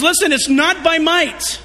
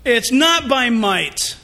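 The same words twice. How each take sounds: First: "Listen, it's not by might" as a firm pronouncement; quoting God. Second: "it's not by might" said very slowly, "not" weighted; slow emphasis. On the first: Retold or imitated. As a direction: declare "might" with a falling close. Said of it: "And he says". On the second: Shown as a demonstration. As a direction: lay heavy stress on "not", slowly.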